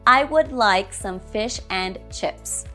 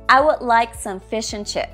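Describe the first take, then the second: First: The small words are all said in full. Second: The small words are shortened and reduced. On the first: "Strong form, ... This version sounds unnatural" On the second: "Now let's go with the weak forms"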